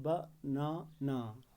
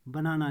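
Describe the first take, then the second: First: banana slow and softer, as three separate beats ba-na-na; syllable by syllable. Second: Said in the usual way. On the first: Shown as a demonstration. Teacher showing the tongue moves three times, syllable by syllable. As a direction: break banana into ba, na, na with pauses. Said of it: "तीन बार इस word को बोलते हैं". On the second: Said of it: "बनाना लिखते हैं".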